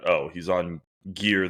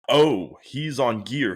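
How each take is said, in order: First: It sounds dismissive and scornful. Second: It sounds impressed and respectful. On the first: His size comes only from the drugs. The speaker calls it wrong. "the mindset you just described" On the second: He must be training extremely hard. The speaker calls it right. "just changing your complexion and tone"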